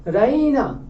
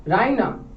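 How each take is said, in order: First: राइना with the middle 'ee' stretched long and raised in pitch; drawn-out call. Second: Said in the usual way. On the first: Shown as a demonstration. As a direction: call out राइना, dragging the 'ee' as if searching for someone. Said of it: "उसको खींच रही है". (राइना का 'ई' खींचकर पुकारते हुए) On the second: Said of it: "वो उसको बोलती कैसे है".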